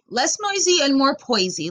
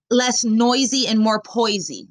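First: Higher, incredulous mock of "less noisy and more poisy"; scoffing mock quote; mocking repeat. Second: Slow, deliberate quote of the catchphrase; slow, measured quote; quoting slowly. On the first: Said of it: "Like, what the fuck?". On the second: Retold or imitated. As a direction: spell out "less noisy and more poisy" slowly, as if reading it off. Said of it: "He claims that he's".

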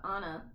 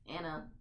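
First: "Anna" said as AH-nah; open-vowel pronunciation. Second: "Anna" with the vowel of "cat"; flat-A pronunciation. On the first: Recalling the character's name, "Anna" with a broad "ah". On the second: Correcting the character's name, "Anna" with a short "a". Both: Shown as a demonstration.

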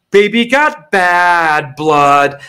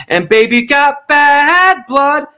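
First: Slow, mock-sung lyric. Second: Slow sung line going much higher; sung lyric. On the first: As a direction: croon it in a drawn-out way. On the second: Pretend. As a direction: belt out the last sung line.

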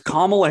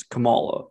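First: "Kamala" as KAH-muh-luh; "Kamala" with the first syllable stressed. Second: "Kamala" as kuh-MAH-luh; "Kamala" with the middle syllable stressed; stress on second syllable. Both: Shown as a demonstration. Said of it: "it's the other one".

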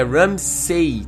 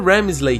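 First: Ramsay said slowly and carefully, no L; correct name. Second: Ramsley, said with an L before the -ey; the wrong way, Ramsley with an added L; wrong name. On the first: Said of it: "É Ramsay". (Ramsay pronunciado devagar, do jeito certo) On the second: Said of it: "não é Ramsley". (Ramsley com L, do jeito errado) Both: Shown as a demonstration.

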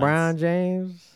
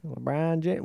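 First: Very slow, stretched name; drawn out. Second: Said in the usual way. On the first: Pretend. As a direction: stretch LeBron James out slowly. Slow comic echo.

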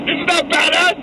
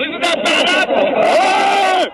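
First: Said in the usual way. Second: Dragged out, slow, warped playback; slowed-down edit. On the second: Acted. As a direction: stretch every word like a slowed tape. Remix edit repeats the line slowed.

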